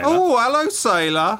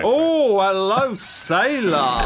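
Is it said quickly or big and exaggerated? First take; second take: quickly; big. First: It is said quickly and lightly. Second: It is said big and exaggerated.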